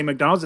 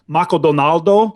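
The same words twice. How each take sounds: First: Said in the usual way. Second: Maco Donaldo, with vowels added, said the Japanese way; Japanese-style McDonald's. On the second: Shown as a demonstration. Teaching a friend to order in Japan, Japanese-style Maco Donaldo. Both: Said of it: "You have to say that".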